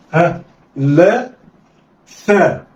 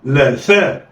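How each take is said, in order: First: لا and ثاء slowly with pauses; letters read separately. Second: لا ثاء snatched together; blended quickly. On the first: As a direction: sound out لا then ثاء. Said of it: "هقول إيه؟". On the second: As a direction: run لا and ثاء into one. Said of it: "يلا، اخطف". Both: Shown as a demonstration.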